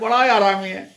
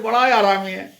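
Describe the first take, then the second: First: It is said in an affectionate, praising tone. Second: The same.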